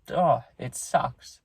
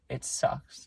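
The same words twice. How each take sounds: First: Drawn-out, heavy-hearted groan of grief; real sorrow, dragged out slowly; slow sad sigh. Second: Soft, breathy whisper of real sadness; real sorrow, said under the breath; whispered grief. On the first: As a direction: let the words sag out slowly with real sorrow. Grieving vlogger sighs over dog. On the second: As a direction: barely whisper it, worn out by grief. Grieving vlogger repeats it softly. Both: Real, not acted.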